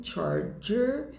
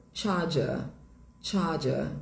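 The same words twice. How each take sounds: First: American "charger", both Rs sounded, pitched up; sotaque americano. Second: British "charger", no Rs, ending in "ah"; sotaque britânico. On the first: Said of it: "Em inglês americano". (sotaque americano, tom mais alto, R marcado) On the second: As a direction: drop both Rs in "charger", British style. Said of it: "Em inglês britânico". (sotaque britânico, sem pronunciar o R) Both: Shown as a demonstration.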